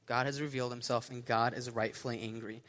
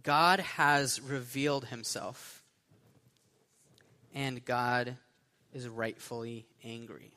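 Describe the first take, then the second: First: Said in the usual way. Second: Slow, spaced-out announcement with long pauses; slow sermon point. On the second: Real, not acted. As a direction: give it out for note-takers, phrase by phrase. Announces point for note-takers.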